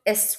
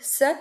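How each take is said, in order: First: A short vowel sound comes before the s. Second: It begins straight away with an s sound. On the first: "وقفت على الحرف" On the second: "زي sun"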